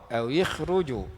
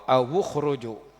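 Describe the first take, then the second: First: The vowel after the w is i. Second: The vowel after the w is u. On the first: This is the reading of a smaller group of reciters. "dikasrahkan waw" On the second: This is the reading of most reciters. "dhammah waw"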